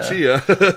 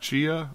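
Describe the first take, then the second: First: The name starts with a clearly pronounced T. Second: The name starts with a ch sound, no T. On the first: "We don't have silent T's in West Virginia" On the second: "I think it's like Chia"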